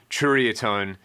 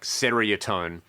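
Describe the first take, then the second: First: It begins with a 'ch' sound, like 'cherry'. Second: It begins with a plain 'seer' sound. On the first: "imagine if you had jury, but you put a C H at the front" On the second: "kind of as it's spelt"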